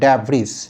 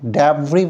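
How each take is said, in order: First: The word ends with an audible s sound. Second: The word ends without any s sound. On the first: The speaker calls it wrong. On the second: The speaker calls it right.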